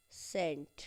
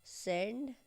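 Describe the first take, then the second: First: सेंट said with a crisp t at the end; सेंट ending in a t sound; sent with a t. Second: सेंड said with a hard retroflex d at the end; सेंड with a final d sound; sənd with a d. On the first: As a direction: end सेंट on a clear t, falling. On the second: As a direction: end सेंड on a clear d, rising. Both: Shown as a demonstration. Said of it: "ये सेंड है".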